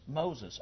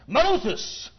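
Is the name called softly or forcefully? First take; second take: softly; forcefully. First: It is said softly, without force. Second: It is called out loudly and forcefully.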